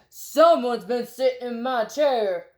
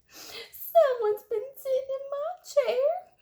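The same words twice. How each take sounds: First: It is said in a great big voice. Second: It is said in a wee little voice.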